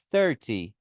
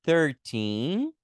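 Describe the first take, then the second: First: "Thirty" stressed on THIR, falling; stress on first syllable. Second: Put-on "Thirteen" with stress on TEEN. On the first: Teacher contrasts "Thirty" with thirteen, THIR stressed and falling. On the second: Teacher contrasts "Thirteen" with thirty, stressed teen. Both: Shown as a demonstration. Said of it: "veja que tem uma diferença".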